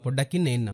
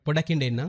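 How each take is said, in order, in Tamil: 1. இரண்டாவது வார்த்தை இரட்டை n ஒலியுடன் சொல்லப்படுகிறது. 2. இரண்டாவது வார்த்தை nd ஒலியுடன் சொல்லப்படுகிறது. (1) "இத வந்து நீங்க இன்னன்னு பயன்படுத்தவில்லை" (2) "சாதாரணமா நாங்க பேசும்போது அந்த இண்டன்ற வசனம் உச்சரிக்கப்படும்"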